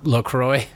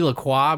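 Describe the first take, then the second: First: It is said with an American pronunciation. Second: It is said with a French pronunciation. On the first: This is how people in America actually say it. "it's LaCroix because we're American" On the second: This is how the name properly should sound. "should be LaCroix"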